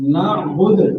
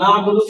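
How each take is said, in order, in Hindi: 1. शब्द व्यंजन d पर खत्म होता है। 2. शब्द का अंत d के बाद स्वर से होता है। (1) "ना बुदू की जगह आप पढ़ते ना बुद" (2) "दाल पर भी है"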